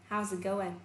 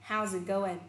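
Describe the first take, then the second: No difference in how they are said.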